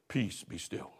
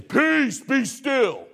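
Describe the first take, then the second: First: Very soft and much lower, nearly breathed; soft version of the command; hushed command. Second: Peace higher and strong, then be still falling; commanding version of the command; firm command. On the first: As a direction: say Peace be still gently, barely aloud. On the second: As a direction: order the sea to calm with authority. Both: Shown as a demonstration. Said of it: "I wonder how he said that".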